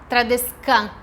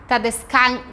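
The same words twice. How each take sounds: The two takes are said the same way.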